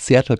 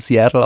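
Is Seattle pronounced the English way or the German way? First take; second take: German; English. First: Seattle is said with a German pronunciation. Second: Seattle is said with an English pronunciation. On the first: The speaker calls it wrong. "auf Seattle kommt" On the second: The speaker calls it right. "sobald man aus dem Englischen rauskommt, auch wieder von Seattle"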